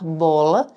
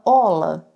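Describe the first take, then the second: First: The word begins with a b sound. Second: The word begins without the b sound. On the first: The speaker calls it right. "quer falar bola" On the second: The speaker calls it wrong. "fala ola, tira o B, omite o B"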